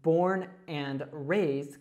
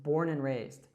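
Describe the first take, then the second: First: Each word is said separately and fully. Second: 'And' links to 'born' and its 'd' drops.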